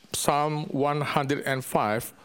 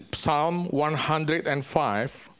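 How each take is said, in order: Both takes have the same delivery.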